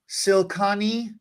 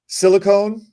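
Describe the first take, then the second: First: The word is pronounced in a garbled, odd way. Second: The word is pronounced in the standard way. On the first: The speaker calls it wrong. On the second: The speaker calls it right.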